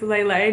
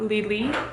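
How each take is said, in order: First: The vowels sound like 'eh' in 'bed'. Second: The vowels sound like 'ee' in 'see'. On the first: The speaker calls it right. "They have a little accent on the E, so I'm assuming it's Lele" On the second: The speaker calls it wrong. "not Lili"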